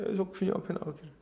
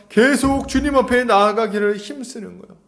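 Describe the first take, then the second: First: 계속 주님 앞에 나아가기를 repeated much softer and faster, almost under the breath; soft quick echo. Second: Said in the usual way. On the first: Shown as a demonstration. Preacher echoes his own point to the congregation, softly and quickly. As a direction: murmur the phrase back to yourself quickly.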